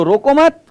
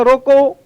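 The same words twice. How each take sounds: First: रोको मत run together high, मत punched before stopping; comma after मत. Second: रोको pushed high, final vowel held before a pause; stress on रोको. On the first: Teacher showing a comma after मत, stressed high. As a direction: join "रोको मत" tightly, stop after मत. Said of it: "मत के बाद लगा देता हूं मैं comma". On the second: Teacher showing a comma after रोको, stressed and held. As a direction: lean hard on "रोको" and stop as at a comma. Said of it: "दबाव इस पर लग गया". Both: Shown as a demonstration.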